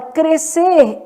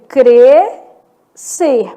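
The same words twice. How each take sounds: First: Said in the usual way. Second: "crescer" split slowly, cre, pause, cer; slow "crescer" with a clear gap after cre; syllable by syllable. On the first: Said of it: "Então, na palavra crescer". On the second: Shown as a demonstration. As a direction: sound out "crescer" in two drawn-out syllables. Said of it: "eu tenho crescer".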